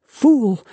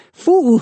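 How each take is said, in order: First: High spiteful cry of Fool!; malicious shout. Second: Fool! much higher and louder; shrill malicious shriek. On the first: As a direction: spit out Fool! loud and high. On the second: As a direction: scream Fool! at the top of the voice. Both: Acted. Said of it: "weak voice behind him, trembling with malice".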